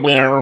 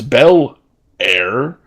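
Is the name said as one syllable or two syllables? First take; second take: one syllable; two syllables. First: The name is squeezed into one syllable. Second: The name has two syllables with a pause. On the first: The speaker calls it wrong. "make every syllable in her name one syllable" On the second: The speaker calls it right. "there is a pause between the bell and the air"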